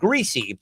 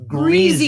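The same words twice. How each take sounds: First: The middle consonant is an S sound. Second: The middle consonant is a Z sound. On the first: The speaker calls it wrong. "change the way that we pronounce the word greasy" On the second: The speaker calls it right. "more accurately uh, verbalized as greasy"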